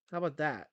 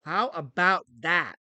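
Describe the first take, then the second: First: Said in the usual way. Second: Slow, drawn-out taunt. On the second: Shown as a demonstration. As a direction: stretch it out slowly.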